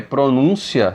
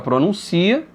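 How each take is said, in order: First: The stress is on the second syllable. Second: The stress is on the third syllable. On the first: It is a noun. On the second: It is a verb.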